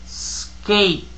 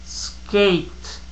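Both takes have the same delivery.

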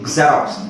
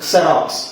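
First: The word begins with a gz sound. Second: The word begins with a ks sound. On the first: "ಅದನ್ನ ಸ್ವಲ್ಪ ಗಾ ಹಾಕ್ಬೇಕು" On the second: "ಕ್ಸೆ xerox"

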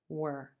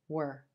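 First: The word has a short, reduced vowel. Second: The same.

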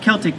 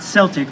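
First: The word begins with a hard K sound. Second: The word begins with a soft S sound. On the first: This is the Irish way to say it. The speaker calls it right. "in Ireland it is pronounced Celtic" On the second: This is the Boston way to say it. The speaker calls it wrong. "not Celtic, like in Boston"

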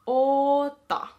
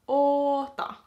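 Both takes have the same delivery.

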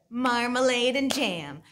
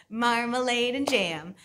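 Both takes have the same delivery.

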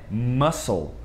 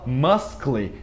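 First: The c is silent, with no k sound. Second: The c is pronounced as a k sound. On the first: The speaker calls it right. "É muscle" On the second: The speaker calls it wrong. "A gente não fala muscle"

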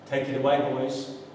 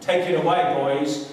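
First: It is said quietly. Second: It is said loudly.

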